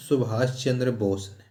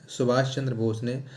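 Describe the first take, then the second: No difference in how they are said.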